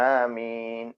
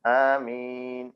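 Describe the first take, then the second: Both takes have the same delivery.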